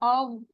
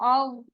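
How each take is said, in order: No difference in how they are said.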